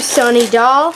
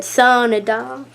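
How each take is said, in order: First: Accidental touch of southern accent on "Sunny doll"; slight southern accent. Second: Drawn-out southern "Sunny doll"; southern accent. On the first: Real, not acted. Naming a squishy for viewers, slight southern accent. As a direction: let "Sunny doll" slip into a light southern lilt. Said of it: "I said that with, like, a southern accent". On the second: Shown as a demonstration. Mimicking own slip for viewers, slow southern accent. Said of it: "like, a southern accent".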